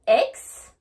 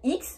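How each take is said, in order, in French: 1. La lettre se prononce avec un son anglais. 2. La lettre se prononce avec un son à la française. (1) "En anglais, c'est bien X" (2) "j'entends souvent des personnes me dire X, mais non, ce n'est pas X"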